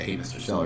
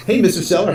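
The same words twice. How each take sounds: First: Said in the usual way. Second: High, loud, bright-eyed phone hello; cheery sales greeting. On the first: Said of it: "they're not gonna say". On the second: Shown as a demonstration. Agent greeting a seller caller, loud and cheery. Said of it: "or they're not gonna say".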